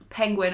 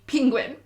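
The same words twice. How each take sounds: First: The first syllable has the vowel of pen. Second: The first syllable has the vowel of ping. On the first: "Not penguin, as in it's spelt P E" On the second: "I say penguin, as in P I N G"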